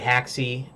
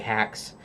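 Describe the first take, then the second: First: It has two syllables, ending in an ee sound. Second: It is one syllable with an a vowel. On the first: "So some say haxy like I do" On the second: "Some say hax"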